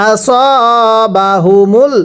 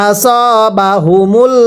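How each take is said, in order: No difference in how they are said.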